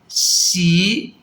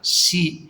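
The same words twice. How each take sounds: First: The pitch starts low and rises slightly. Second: The pitch stays low and level. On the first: "low rising" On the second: "that's a low level"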